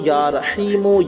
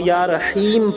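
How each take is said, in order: First: The name ends with a short 'u' vowel. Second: The name ends without a final vowel. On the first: The reciter goes on without stopping. "जहाँ लगातार मिलाकर पढ़ेंगे वहाँ" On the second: The reciter stops after the name. "जहाँ ठहरेंगे वहाँ"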